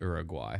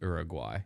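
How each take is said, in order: First: The name is pronounced in a native-like way. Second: The same.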